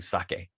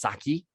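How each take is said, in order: First: The word ends in an 'eh' vowel. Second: The word ends in an 'ee' vowel. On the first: The speaker calls it right. "the E is always pronounced like it's pronounced in Spanish" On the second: The speaker calls it wrong. "it's not pronounced saki"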